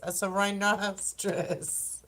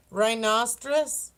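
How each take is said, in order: First: "rhinoceros" spelled out slowly and deliberately, settling on it; careful slow word. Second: "Rhinoceros?" as a questioning guess, rising at the end; unsure try at the word. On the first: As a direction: slowly land "rhinoceros" now that you've got it. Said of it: "That's what it is". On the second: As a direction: test out "Rhinoceros?" like you're not sure it's right. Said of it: "I can't say the word". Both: Shown as a demonstration.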